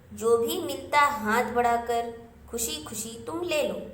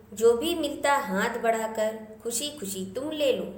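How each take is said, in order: Both takes have the same delivery.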